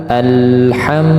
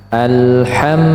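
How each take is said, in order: Both takes have the same delivery.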